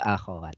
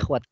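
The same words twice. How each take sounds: First: The kh sound is followed by an a vowel. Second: The kh sound is followed directly by w. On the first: The speaker calls it right. "Yang betul akhwat. ... khoknya pakai fathah" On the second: The speaker calls it wrong.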